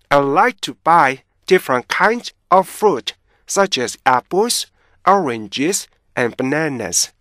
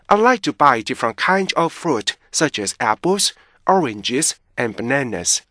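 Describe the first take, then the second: First: The sentence is read at a slow pace. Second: The sentence is read at a fast pace. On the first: "천천히 보세요" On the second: "저를 따라서 너무 빨리 읽으실 필요는 없고요"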